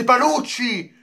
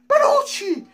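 First: Said in the usual way. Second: Name yelped far higher, in shock; squeaked disbelief. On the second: Real, not acted. Fan hearing Panucci named for Roma, squealing in disbelief. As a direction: squeal the name like you can't believe it.

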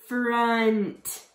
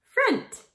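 First: "Front" drawn out, sounds stuck together; slowly blended word. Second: Said in the usual way. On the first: Shown as a demonstration. Teacher blending sounds for kids, "Front" stretched slowly. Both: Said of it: "you're going to stick it together".

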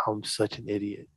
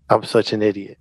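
First: Self-reproach. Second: Said in the usual way. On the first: Retold or imitated. Regretting it next morning.

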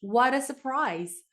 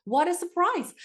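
First: Slow model reading. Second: Excited surprise. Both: Shown as a demonstration. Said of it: "한번 해볼까요?".

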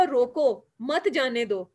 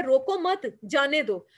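First: रोको set apart, then मत जाने दो together; pause after रोको. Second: रोको मत together, then जाने दो apart; pause after मत. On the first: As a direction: break after रोको, run मत जाने दो as one phrase. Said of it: "रोको के आगे लगाओगे तो क्या बन जाएगा". (रोको के बाद ठहराव, फिर मत जाने दो एक साथ) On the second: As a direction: run रोको मत as one phrase, break before जाने दो. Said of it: "के अगर आगे लगाते हैं कॉमा तो क्या बनता है". (रोको मत एक साथ, फिर ठहराव, फिर जाने दो) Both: Shown as a demonstration.

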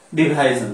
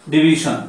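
First: ডিভিশন said as "di-bhai-zon"; variant pronunciation. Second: ডিভিশন said as "di-bi-shon"; preferred pronunciation. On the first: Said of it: "ডিভিশন অনেকে উচ্চারণ করে থাকি". (ডিভিশন-কে "ডিভাইজন" উচ্চারণে) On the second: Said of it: "ডিভিশন বলি বা ডিভিশন". (ডিভিশন-কে "ডি-ভি-শন" উচ্চারণে) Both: Shown as a demonstration.

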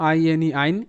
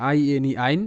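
The two takes are said the same way.

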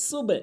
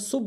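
First: "সুবে" with the B released in a short bounce; qalqalah bounce. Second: "সুব" closed on a dead B with no bounce; missing qalqalah. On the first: Shown as a demonstration. Teacher shows the qalqalah rule, "সুবে" with an echoing B. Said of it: "এখানে সুবে বলতে হবে". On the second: Retold or imitated. Teacher shows the common mistake, "সুব" with no echoing B. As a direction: shut "সুব" on the B without releasing it. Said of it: "না বোঝার কারণে সুব বলে".

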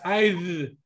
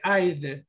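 First: I'd with a heavy, drawn-out D; overdone final D. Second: I'd said slowly with a light audible D; subtle final D. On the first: Teacher mocking how students might end up talking, overdone D on I'd. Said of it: "llegan a hablar así". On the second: Teacher showing students the right form, subtle D on I'd. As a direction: let a small D be heard ending I'd. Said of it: "se tiene que escuchar la D esa". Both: Shown as a demonstration.

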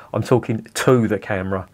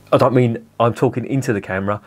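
First: "to" leaned on a little to set it against "into"; light stress on "to" to show he addresses the camera. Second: Said in the usual way. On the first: Shown as a demonstration. Correcting himself, a gentle stress on "to".

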